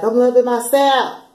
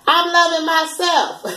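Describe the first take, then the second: First: Said in the usual way. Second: Much higher, slow and drawn out; sing-song mock of self-love; a silly high put-on voice; odd high voice. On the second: Shown as a demonstration. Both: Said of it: "I don't know why I said it like that".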